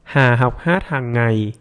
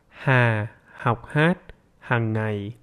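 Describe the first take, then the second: First: It is spoken at a normal conversational speed. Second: It is spoken slowly, somewhat faster than before. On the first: "Now with a normal speed" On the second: "Now a little bit faster"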